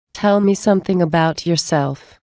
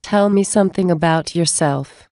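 Both takes have the same delivery.

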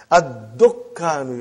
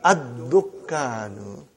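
First: Ad-dukkanu slowly with the doubled k; slow Arabic demo. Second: Ad-dukkanu stretched very slowly with a rising end; drawn-out Ad-dukkanu asking it back; very slow demo. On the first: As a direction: model Ad-dukkanu, falling. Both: Shown as a demonstration. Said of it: "how do you say".

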